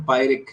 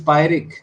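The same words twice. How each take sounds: First: पायरिक said gently, neither syllable stressed; understated, unstressed पायरिक; lightly slipped out. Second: Said in the usual way. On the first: Shown as a demonstration. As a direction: let पायरिक pass with no stress. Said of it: "पायरिक आप कितना धीरे से बोल के निकल रहे हो". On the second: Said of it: "कितना धीरे से बोल के निकल रहे हो".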